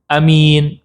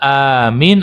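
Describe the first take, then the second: First: The first vowel is kept short. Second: The first vowel is held long. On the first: "A-nya dibaca pen pendek" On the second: "memanjangkan yang amin"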